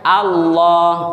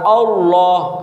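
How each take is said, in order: First: The L sound is light and thin. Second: The L sound is heavy and thick. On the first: The speaker calls it wrong. "Lam yang dibaca tarkik" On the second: The speaker calls it right. "Lamnya itu adalah lam yang dibaca tebal"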